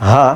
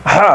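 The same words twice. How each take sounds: First: "হা" plain, light breath like Bengali h; open, easy "হা"; soft ha. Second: "হা" breathed hard from mid-throat, Arabic ha; the second ha, set against the first; throaty ha. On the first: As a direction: earlier letter, said lightly. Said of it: "আর এটা হচ্ছে হা". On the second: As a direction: rasp "হা" from the throat. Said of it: "যদি পার্থক্য না করেন". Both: Shown as a demonstration.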